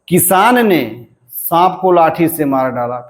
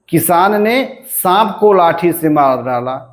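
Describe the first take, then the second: First: The stress falls on the word किसान. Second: The stress falls on the word सांप.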